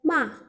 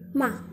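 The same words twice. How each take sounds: First: The pitch drops sharply and abruptly. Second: The syllable is quick and toneless. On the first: "intonasi menghentak atau intonasi keempat" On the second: "tidak ada intonasi, kita bacanya harus lebih cepat"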